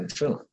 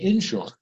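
First: The word is said the non-Southern way. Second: The word is said the Southern way. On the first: "not insurance" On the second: "in the South, they say insurance"

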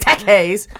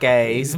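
First: It is said in an over-excited voice. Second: It is said in a Forrest Gump voice.

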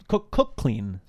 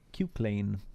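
First: The first syllable sounds like 'cook'. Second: The first syllable sounds like 'cue'. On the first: The speaker calls it right. "It's actually pronounced cook, as in book" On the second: The speaker calls it wrong. "that I couldn't pronounce his name"

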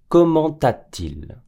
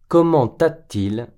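Both takes have the same delivery.

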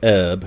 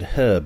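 First: The word starts with a vowel, no h. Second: The word starts with a clear h sound. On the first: This is the American way of saying it. The speaker calls it wrong. "You call it herb" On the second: This is the British way of saying it. The speaker calls it right. "because there's a fucking H in it"

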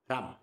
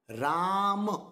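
First: The first vowel is short. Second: The first vowel is long. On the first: The speaker calls it wrong. "Did it make an impact? No" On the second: The speaker calls it right. "Did it make an impact? 100%"

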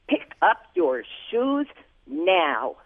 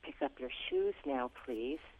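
First: It is said in a harsh, commanding tone. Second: It is said in a gentle, cooperative tone.

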